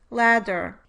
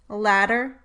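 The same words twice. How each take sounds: First: The middle consonant is a full, held stop. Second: The middle consonant is a brief tongue tap. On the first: "with and without the alveolar flap" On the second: "with and without the alveolar flap"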